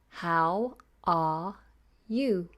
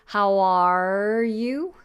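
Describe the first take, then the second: First: The R in 'are' is silent. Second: The R in 'are' is clearly sounded. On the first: The speaker calls it right. "Nice and easy" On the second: The speaker calls it wrong. "I don't want how are you, which is what I hear a lot"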